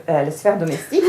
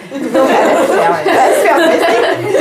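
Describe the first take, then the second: First: Said in the usual way. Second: Higher and louder, breaking into real laughter; laughing. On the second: Real, not acted. Lecturer amused by the novel's absurd gender roles, laughing. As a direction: laugh your way through it, unable to stay serious.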